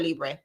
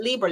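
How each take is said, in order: First: "Libre" said as LEE-bray; ending in "bray". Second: "Libre" said as LEE-ber; two-syllable "leeber". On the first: Host offering the other name, "Libre" as LEE-bray. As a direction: say "Libre" with the r before the final vowel. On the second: Host unsure of a perfume's name, "Libre" as LEE-ber. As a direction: say "Libre" ending in a plain "ber". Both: Shown as a demonstration. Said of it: "Is it Libre or Libre?".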